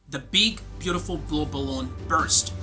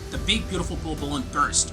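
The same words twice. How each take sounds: First: It is said slowly. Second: It is said faster.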